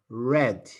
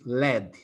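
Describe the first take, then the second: First: The word begins with an R sound. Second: The word begins with an L sound. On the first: The speaker calls it right. "no, no, red" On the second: The speaker calls it wrong. "they have a hard time pronouncing the R"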